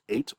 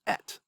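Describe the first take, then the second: First: The vowel is a long 'ay' sound. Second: The vowel is a short 'eh' sound. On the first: The word stands alone and is accented. "Up here it's pronounced as, you know, the number eight in English" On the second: The word is attached and unaccented. "down here, it's pronounced et"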